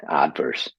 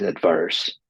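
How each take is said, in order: First: "adverse" stressed on the first syllable, AD-verse; American stress. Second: "adverse" stressed on the second syllable, ad-VERSE; British stress. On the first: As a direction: hit AD in "adverse" and let the rest fall. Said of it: "but Americans say adverse". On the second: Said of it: "in British it's adverse". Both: Shown as a demonstration.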